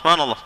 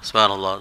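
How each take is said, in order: First: The word is said at a faster pace. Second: The word is said at a slower pace. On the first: The speaker rushes without understanding the words. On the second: The speaker does not understand the words being said.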